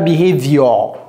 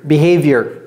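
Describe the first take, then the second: First: The ending sounds like "your". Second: The ending sounds like "year". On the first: The speaker calls it wrong. "Ce n'est pas behavior. Ce n'est pas your" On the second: The speaker calls it right. "C'est year"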